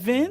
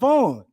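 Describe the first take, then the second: First: The vowel is a short, closed i sound. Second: The vowel is an open aw sound. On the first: The speaker calls it wrong. "Is that Vin?" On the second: The speaker calls it right. "No, that's Vaughn"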